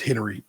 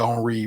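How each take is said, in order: First: The name is said with an English pronunciation. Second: The name is said with a French pronunciation. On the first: "kid is Henry" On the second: "I say Henri whenever I'm discussing him"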